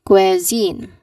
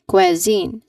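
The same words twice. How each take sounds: Both takes have the same delivery.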